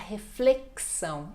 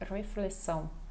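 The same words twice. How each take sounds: First: It is said with a Brazilian Portuguese accent. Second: It is said with a Macau Portuguese accent. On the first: This is how people here say it. "aqui a gente vai falar reflexão" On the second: This is how people there say it. "eles falam ref, ref, reflexão"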